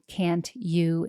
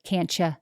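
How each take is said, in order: First: Both words are pronounced fully and clearly. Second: The second word is reduced to a weak ya. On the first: The speaker seems organized and precise. The speaker calls it right. "actually saying" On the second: The speaker seems casual and relaxed. The speaker calls it wrong. "instead of"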